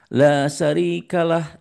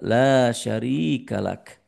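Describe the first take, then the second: First: The phrase ends with a soft h sound. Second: The phrase ends with a clear k sound. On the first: The speaker calls it wrong. "kadang-kadang saya menemukan jamaah umroh itu labas tuh" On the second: The speaker calls it right. "Yang betul adalah"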